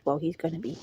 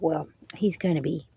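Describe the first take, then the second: First: Politely. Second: Said in the usual way. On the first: Retold or imitated. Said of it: "Politely, with all due respect". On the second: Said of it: "And I was like".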